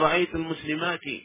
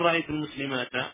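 First: The last word ends with an 'i' vowel. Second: The last word ends with an 'a' vowel. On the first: The speaker calls it right. "جمع المؤنث السالم ينصب بإيش؟ بالكسرة" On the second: The speaker calls it wrong. "ولا تقول"

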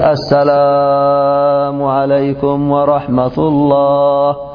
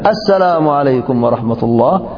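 First: The phrase is drawn out with lengthened vowels. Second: The phrase is said short, without lengthening. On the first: The speaker calls it wrong. "هل تقول السلام عليكم ورحمة الله؟" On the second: The speaker calls it right. "فحذف السلام هكذا"

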